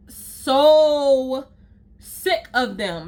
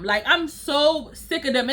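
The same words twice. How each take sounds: First: Drawn-out disgust. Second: Said in the usual way. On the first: Real, not acted. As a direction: drag it out, fed up. Rant about stylists, repeated phrase.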